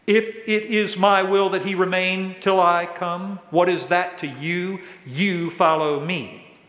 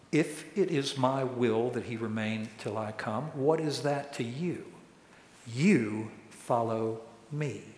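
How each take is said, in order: First: Firm, raised-voice quoted rebuke. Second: Soft, measured scripture reading, weighting the last words; measured Jesus quote. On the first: Jesus rebukes Peter for being distracted, firm and raised. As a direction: reprove him emphatically, slowing on the last words. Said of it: "So Jesus rebukes Peter". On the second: Jesus answers Peter's question about John, quiet and deliberate. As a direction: let it land quietly, slowing right down at the end. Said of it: "And Jesus said to him". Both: Retold or imitated.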